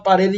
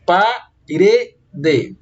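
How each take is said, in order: First: Said in the usual way. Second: "Parede" as pa, re, de with pauses; measured syllable-by-syllable "Parede"; split into syllables. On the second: Shown as a demonstration. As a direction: break "Parede" into three separate, spelled-out syllables. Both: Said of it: "dividimos a palavra parede em três sílabas".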